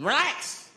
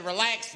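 First: "Relax" pitched high and punched; insistent order. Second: Said in the usual way. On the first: Retold or imitated. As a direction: push out "Relax" as a sharp order. Repeats order to panicking man.

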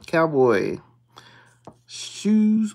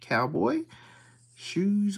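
First: Calls the word out loud and firm; a firm, loud Cowboy. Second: Cowboy, whispered under the breath. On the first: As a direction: announce it like a find. Calling out scratch-off symbols. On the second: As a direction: breathe it out hushed as he checks. Hushed check of the card. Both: Real, not acted.

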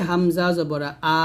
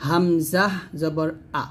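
First: আ stretched into a long aa at the end; wrong drawn-out a. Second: Slow, with আ kept short and unstretched; correct short a. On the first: Teacher showing the common mistake of stretching আ. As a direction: drag out the আ the wrong way. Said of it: "এরকম আতে টান দিয়ে থাকি". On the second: Teacher showing students the correct short আ. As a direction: spell it slowly and clip the আ short. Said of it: "এখানে বলতে হবে". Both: Shown as a demonstration.

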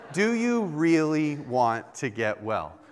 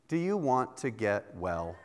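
First: Slow, deliberate questioning; wife pressing the question. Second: Soft, quiet, half-laughing question; a hint of a gently teasing wife; wife asking gently. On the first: Retold or imitated. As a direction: lean on each word, pressing. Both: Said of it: "come up to me while I'm sick and said".

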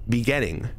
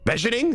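First: "beginning" said bee-ginning; bee-GIN-ning, hard g; own pronunciation. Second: "beginning" garbled as beh-zhuh-ning; sarcastic BEH-zhuh-ning; mock alternative pronunciation. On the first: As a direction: sound out "beginning" with "bee" first. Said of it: "You also say beginning differently". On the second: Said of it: "do you want me to say goddamn beginning?". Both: Shown as a demonstration.

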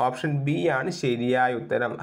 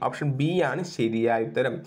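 Both takes have the same delivery.

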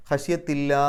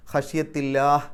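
First: ഖശ്യത്തില്ലാ with the last aa drawn out long; elongated final vowel. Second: ഖശ്യത്തില്ലാഹ് ending on a clipped, silent-vowel h; stopping with sukun. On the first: Teacher demonstrates the long madd on ഖശ്യത്തില്ലാ, stretching the final aa. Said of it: "ആറ് അക്ഷരത്തിൻ്റെ ദൈർഘ്യം വരെ നീട്ടാൻ". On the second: Teacher shows students how to stop on ഖശ്യത്തില്ലാഹ്, cut short on the h. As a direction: stop on ഖശ്യത്തില്ലാഹ് with the final h held still. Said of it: "അവസാനത്തെ ആ ഹാഇന് സുക്കൂനിട്ടിട്ട്". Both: Shown as a demonstration.

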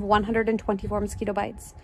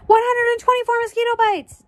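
First: Said in the usual way. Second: High, loud triumphant call; high-pitched excited shout. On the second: Acted. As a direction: call the answer out across the class. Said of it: "Dana called".

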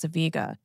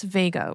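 First: Vega said as VEE-guh; alternate pronunciation. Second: Said in the usual way. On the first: Shown as a demonstration. Astronomy host giving the other pronunciation, Vega as VEE-guh. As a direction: say Vega with a long ee in the first syllable. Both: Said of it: "can also be pronounced as Vega".

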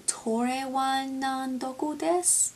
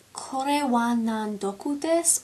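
First: Slow, unsure "Tore wa nan doku desu" in a poor Japanese accent; bad Japanese accent. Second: Slow "Kore wa nan doku desu" in a poor Japanese accent; bad Japanese accent. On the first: Second guess at the phrase, slow, in a bad Japanese accent. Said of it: "ignore the really bad accent". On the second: Half-remembered school phrase, slow, in a bad Japanese accent. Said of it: "I'm probably saying it really poorly". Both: Shown as a demonstration.

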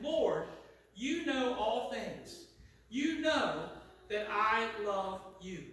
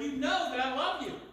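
First: Very slow, weighted plea; grieved. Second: Higher, quick-answering affirmation; emphatic assurance. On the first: Peter answering Jesus the third time, grieved. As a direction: draw out each phrase with hurt sincerity. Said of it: "Peter was grieved". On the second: Peter answering Jesus the second time, emphatic. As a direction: assure him readily and firmly. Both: Acted.

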